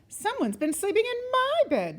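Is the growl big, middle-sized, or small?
middle-sized. It is said with a middle-sized growl.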